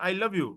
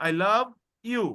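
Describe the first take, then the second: First: Said in the usual way. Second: I love joined, you released separately; you set apart. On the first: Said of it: "আপনি বলবেন না". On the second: Shown as a demonstration. Teacher showing the correct way, you separated. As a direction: lift love, then release you alone. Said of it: "আপনি বলবেন".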